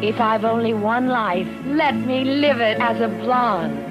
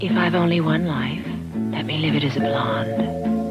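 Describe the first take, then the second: First: It is said with strong, heartfelt feeling. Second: It is said plainly, without special feeling.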